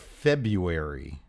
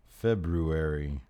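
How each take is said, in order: First: The first r sound is dropped. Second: The first r sound is clearly pronounced.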